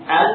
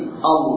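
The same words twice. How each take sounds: First: The l sound is light and thin. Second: The l sound is heavy and thick. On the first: "Yang tadinya tipis"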